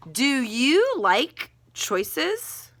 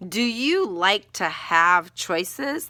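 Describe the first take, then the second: First: Slow question tune. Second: Drawn-out "Do you like to have choices?" rising at the end; slow, rising question. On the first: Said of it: "I'm gonna ask that as a question". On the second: Teacher trying a better opening question for students, slowly. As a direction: ask it slowly, hook the reader. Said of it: "No, I'm gonna say". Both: Shown as a demonstration.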